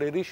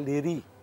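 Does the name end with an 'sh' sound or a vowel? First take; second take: sh; vowel. First: The name ends with an 'sh' sound. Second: The name ends on a vowel, without 'sh'. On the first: This is the better-known, original form. "اشهر ليريش في الاصل" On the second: This is how some people say it. "بعض الناس بتنطقها ليري"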